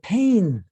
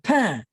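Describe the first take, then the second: First: It is said in southern French with audible N. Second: It is said in Parisian French with silent N.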